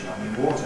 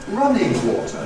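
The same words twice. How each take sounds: First: The stress falls on the word water. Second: The stress falls on the word running. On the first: "adjective plus noun" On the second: "if I want to emphasize the adjective"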